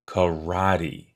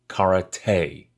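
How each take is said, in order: First: The stress is on the second syllable. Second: The stress is on the third syllable. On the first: "with the accent falling on the second syllable" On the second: "with the accent falling on the third syllable"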